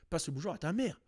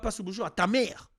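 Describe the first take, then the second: First: The words 'ta mère' are said softly, without emphasis. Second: The words 'ta mère' are pressed with heavy emphasis. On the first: It is an ordinary, polite greeting. The speaker calls it right. "doucement sur le ta mère. Genre, tu peux dire" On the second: It sounds like an insult about your mother. The speaker calls it wrong.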